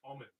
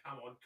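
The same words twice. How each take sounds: First: "common" as one word, stress on the first syllable; right take as one word. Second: "come on" split into two separate words, come then on; wrong take as two words. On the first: Correcting the streamer's misreading, saying "common" the right way. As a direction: say "common" as a single word, COM-mon. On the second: Correcting the streamer's misreading, saying "come on" the wrong way. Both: Shown as a demonstration. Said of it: "Not come on, common".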